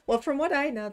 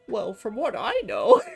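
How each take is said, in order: First: It is said in the plain natural speaking voice. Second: It is said in a silly put-on character voice.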